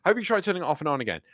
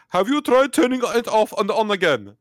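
First: Said in the usual way. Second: Put-on high, loud Indian-accented tech support; mock Indian accent. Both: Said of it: "I shouldn't do an accent".

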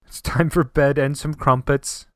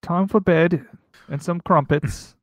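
First: Put-on slow, deliberate try at English accent; attempted English accent. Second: Badly faked English accent, a bit drawn out. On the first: Co-host retrying the crumpets line, mock English accent. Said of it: "I have accent". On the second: Echoing co-host's bedtime line, bad English accent. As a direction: attempt an English accent and miss. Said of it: "the worst English accent I've ever done".

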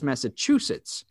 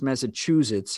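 First: Massachusetts with a hissed s, "Massa-CHOO-sits"; unvoiced s sound ending Massachusetts; disputed pronunciation. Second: Massachusetts with a buzzing z, "Massa-CHOO-zits"; local pronunciation. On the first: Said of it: "he swears it's Massachusetts". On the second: Shown as a demonstration. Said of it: "pronounced Massachusetts how you pronounce it".

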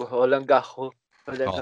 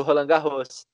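First: Roland Garros with a French accent, final s dropped; French pronunciation. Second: Said in the usual way. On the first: Shown as a demonstration. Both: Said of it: "gastou o francês agora".

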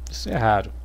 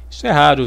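First: Quiet repeat. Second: Said in the usual way. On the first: Shown as a demonstration. Repeating to the audience, softer and lower.

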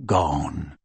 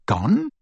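First: One low, defeated word; Kreacher's voice. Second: Rising, higher shocked echo of Gone?; echoed in disbelief. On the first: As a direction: drop it low and heavy like a broken old elf. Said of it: "Kreacher closed his eyes". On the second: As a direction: snap the word back as a stunned question. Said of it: "echoed Harry". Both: Acted.

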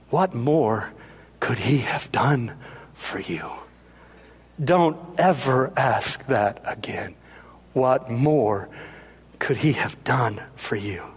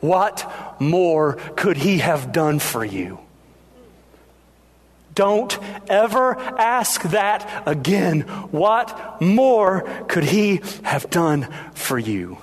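First: Low, soft, near-whispered reproof; hushed rebuke. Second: Slow, weighty mock fury; furious tone. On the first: Acted. Mary turning to the doubter at the cross, hushed rebuke. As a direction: let each phrase fall softly into a whisper. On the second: Outraged mother confronting her dead son's best friend, furious, measured. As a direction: hammer each word slowly, indignant but contained. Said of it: "in a furious tone".

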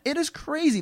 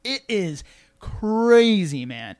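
First: Said in the usual way. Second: Slow, louder, stretched out crazy; drawn-out amazement. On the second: Real, not acted. To his co-host about his new strength, stretched out in awe. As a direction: lean into crazy, dragging it out in awe. Marveling at his own endurance.

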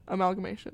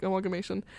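First: "Amalgamation" in its standard word form, not like Amal; corrected pronunciation. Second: "amalgamation" opened like the name Amal; said like her name. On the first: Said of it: "That's not right". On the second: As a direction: start "amalgamation" the way people say Amal. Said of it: "I'm saying it how people say my name". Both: Shown as a demonstration.

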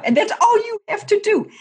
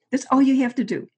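First: Almost squealing that it's all they do; exasperated. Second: Higher and louder, leaning hard on all; firm repeat. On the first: Host venting to co-host about kickers, in high exasperated disbelief. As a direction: voice leaps much higher and louder in disbelief. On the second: Host insisting to co-host kickers have one job, firm and emphatic. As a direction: hammer the point home with all. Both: Real, not acted.

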